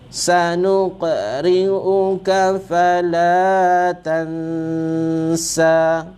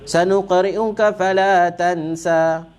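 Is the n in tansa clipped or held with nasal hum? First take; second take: held; clipped. First: It is read carefully and the n hums nasally. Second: It is read fast and the n's nasal hum is lost. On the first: The speaker calls it right. "Jadi bunyinya" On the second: The speaker calls it wrong. "bila baca laju hilang dengungnya tu"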